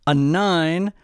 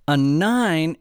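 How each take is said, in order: Both takes have the same delivery.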